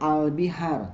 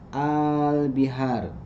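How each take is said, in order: First: The first vowel is short. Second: The first vowel is lengthened. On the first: The speaker calls it wrong. "Bukan al bihar" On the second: The speaker calls it right. "a-nya dipanjangkan"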